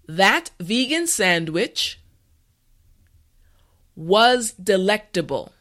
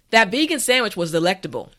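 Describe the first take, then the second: First: The sentence is said slowly and carefully. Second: The sentence is said at a natural pace. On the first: "this time repeat after me" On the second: "the last time at a regular pace"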